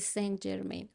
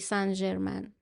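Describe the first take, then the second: First: The name is said with an English pronunciation. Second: The name is said with a French pronunciation. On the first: "تلفظ انگلیسی" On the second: "تلفظ فرانسوی"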